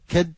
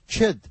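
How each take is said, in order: First: The first sound is a plain k. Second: The first sound is a ch.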